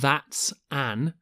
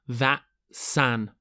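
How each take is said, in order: First: The two words are said separately. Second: The two words are linked together. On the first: The speaker calls it wrong. "It's not that's an" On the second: The speaker calls it right. "There's a linking sound here"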